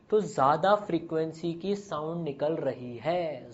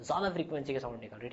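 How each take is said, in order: First: Said in the usual way. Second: Softer, fast echo of the line; quiet hurried restatement; quiet quick repeat. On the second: Shown as a demonstration. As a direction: toss the repeat off softly and quickly.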